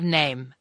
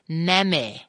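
First: The vowel is long, like in 'day'. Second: The vowel is short, like in 'man'. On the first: The silent final letter is applied. The speaker calls it right. "instead of name" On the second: The silent final letter was ignored. The speaker calls it wrong. "All I never knew was the magic E. So I would say name instead of"

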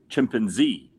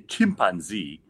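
First: The stress is on the last syllable. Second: The stress is on the first syllable. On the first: "I put the emphasis on Z" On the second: "Nigerians put the emphasis on chimp"

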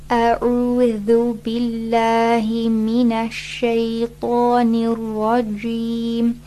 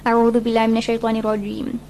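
First: It is recited slowly, each letter given time. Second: It is recited quickly in one big rush. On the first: The speaker calls it right. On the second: The speaker calls it wrong.

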